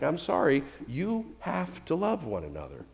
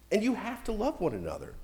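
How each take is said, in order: First: Sorry-to-break-it-to-you delivery; mock apologetic. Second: Said in the usual way. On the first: Shown as a demonstration. Pastor breaking bad news to the congregation, mock apology. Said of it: "Sometimes it's bad news". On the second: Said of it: "Sometimes it's bad news, like".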